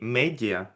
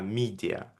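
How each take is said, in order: First: The first vowel sounds like 'meh'. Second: The first vowel sounds like 'mee'. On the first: The speaker calls it wrong. "то есть это не медиа" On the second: The speaker calls it right. "а media, media"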